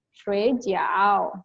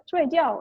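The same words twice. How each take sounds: First: Shuijiao said slowly, drawn out, as the food word; first tone reading. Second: Shuijiao said quick and higher with a falling end; other tone reading. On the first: Explaining Chinese tones to the host, slow Shuijiao. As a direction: stretch out Shuijiao carefully, one syllable at a time. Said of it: "Tapi kalau misalkan bahasanya cepet". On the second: Showing the host the tone for sleeping, quick high falling Shuijiao. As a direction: snap out Shuijiao fast, pitch up then dropping. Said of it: "bahasanya cepet". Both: Shown as a demonstration.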